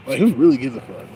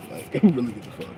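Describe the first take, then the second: First: Who really gives a fuck, loud and pushed; emphatic louder take. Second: Said in the usual way. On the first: Real, not acted. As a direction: punch it out louder. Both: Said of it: "repeated line".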